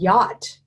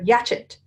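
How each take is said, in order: First: It is said as one syllable ending in t. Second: It is said as two syllables ending chet. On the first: The speaker calls it right. "who in the world would know that that said yacht?" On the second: The speaker calls it wrong. "Or yatchet"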